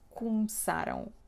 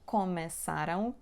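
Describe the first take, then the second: First: The first vowel is reduced to a short sound. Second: The first vowel is a full open vowel. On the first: The speaker calls it right. "It's cum" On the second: The speaker calls it wrong. "It's not começaram"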